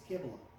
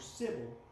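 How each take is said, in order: First: The name begins with a K sound. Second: The name begins with an S sound. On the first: The speaker calls it right. "the correct pronunciation of that goddess" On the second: The speaker calls it wrong. "I made the mistake of calling her Sybil"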